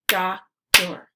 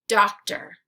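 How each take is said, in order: First: "Doctor" as two separate beats, Doc – tor; syllables split apart. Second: Said in the usual way. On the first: Shown as a demonstration. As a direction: say "Doctor" syllable by syllable, pausing between. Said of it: "break it into the syllables". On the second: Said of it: "repeat the word".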